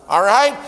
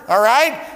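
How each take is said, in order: Both takes have the same delivery.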